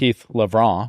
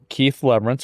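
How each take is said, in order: First: The surname has a French-style pronunciation. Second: The surname has a plain English pronunciation.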